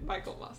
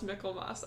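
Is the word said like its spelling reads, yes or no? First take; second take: yes; no. First: The word is said as its spelling reads. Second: The word is not said as its spelling reads. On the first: The speaker calls it wrong. "I read it Michaelmas" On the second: The speaker calls it right. "I think it's actually pronounced Michaelmas"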